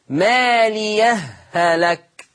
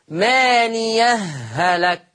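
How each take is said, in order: No difference in how they are said.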